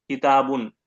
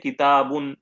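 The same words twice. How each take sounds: First: किताबुन again, with a falling close; repeated word demo. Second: किताबुन spoken clearly, ending in a nasal नून; Arabic word demo. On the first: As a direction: repeat किताबुन, letting the pitch drop on बुन. (किताबुन दोहराकर, उतरते सुर में) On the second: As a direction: say किताबुन syllable by syllable, the final नून ringing. (अरबी लफ़्ज़ किताबुन साफ़ बोलकर दिखाना) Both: Shown as a demonstration. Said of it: "आप कहते हैं किताबुन".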